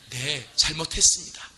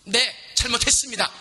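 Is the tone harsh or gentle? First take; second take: gentle; harsh. First: It is said in a soft, gentle tone. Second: It is said in a harsh, biting tone.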